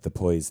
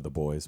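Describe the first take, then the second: First: Put-on "boys" said as "poise", with a p for the b; Welsh-style "poise". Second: Said in the usual way. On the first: Shown as a demonstration. Actor quoting a Welsh character's line, "poise" with a p for b. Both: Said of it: "instead of the boys".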